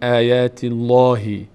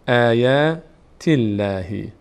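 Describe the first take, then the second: First: The L in Allah sounds full and heavy. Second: The L in Allah sounds thin and light. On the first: The speaker calls it wrong. "نمیگیم آیات الله" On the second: The speaker calls it right. "باریک خوانده میشه"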